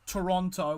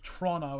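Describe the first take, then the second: First: It is pronounced the standard, non-local way. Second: It is pronounced the local regional way.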